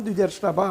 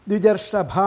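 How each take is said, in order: Both takes have the same delivery.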